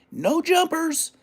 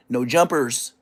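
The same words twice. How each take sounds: First: "No Jumpers" high and slow with the s stressed; correcting the name, "No Jumpers". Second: Said in the usual way. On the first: Shown as a demonstration. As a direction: drag out "Jumpers" with the s. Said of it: "we gotta say it like". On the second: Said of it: "It's not No Jumper".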